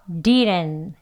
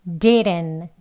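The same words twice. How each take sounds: The two takes are said the same way.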